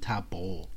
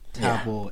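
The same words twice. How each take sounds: First: The B is pronounced hard. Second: The B is pronounced soft. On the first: "hard B" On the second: "soft B"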